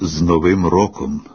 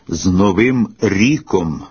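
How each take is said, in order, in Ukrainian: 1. В останньому слові голосний 'o'. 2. В останньому слові голосний 'i'. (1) "При нормативному" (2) "Ми вже колись чули вітання"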